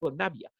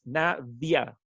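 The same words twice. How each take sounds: First: The v is made with both lips, like b. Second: The v is made with lip and teeth, like f. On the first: This is how the owner says the name in Spanish. "si yo digo Navia" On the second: This is how the name is said in English. "en inglés es Navia, porque la V se menciona así como F"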